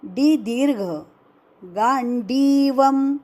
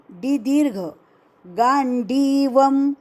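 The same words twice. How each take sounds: The two takes are said the same way.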